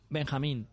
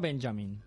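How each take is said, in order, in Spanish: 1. El nombre se pronuncia a la manera española. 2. El nombre se pronuncia a la manera inglesa. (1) "hace de Benjamín ... porque es mexicano" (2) "no Benjamin"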